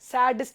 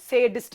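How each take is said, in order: First: The first vowel sounds like 'ah'. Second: The first vowel sounds like 'ay'. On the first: The speaker calls it wrong. "இதை நம்ம யூஸ்வலாக எப்படி சொல்லுவோம் அப்படின்னா சாடிஸ்ட் அப்படி தானே சொல்லுவோம். அது தப்பு" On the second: The speaker calls it right. "சேடிஸ்ட் அப்படின்றதா இங்க சரியான ப்ரொனன்சியேஷன்"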